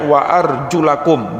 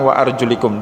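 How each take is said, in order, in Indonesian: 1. Vokal sebelum -kum adalah bunyi 'a'. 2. Vokal sebelum -kum adalah bunyi 'i'. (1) "harus dibaca fathah" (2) "bukan wa arjulikum"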